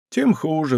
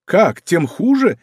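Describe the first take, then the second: First: Sighing. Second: Slow, high amused «Как, тем хуже?»; amused exclamation. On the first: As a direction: let «Тем хуже» fall away on a sigh. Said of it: "вздохнул Безмо". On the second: D'Artagnan repeats Bezmo's words, amused and slow. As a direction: toss back «тем хуже» with mild laughing disbelief. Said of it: "со смехом воскликнул Д'Артаньян". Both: A narrator's reading.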